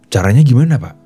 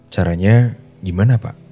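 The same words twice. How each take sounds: First: The tone is harsh and aggressive. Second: The tone is soft and curious. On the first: The listener thinks the speaker is angry. The speaker calls it wrong. "dengan nada yang ngegas seperti itu" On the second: The listener thinks the speaker is willing to try. The speaker calls it right. "dengan nada yang pelan sekaligus penasaran"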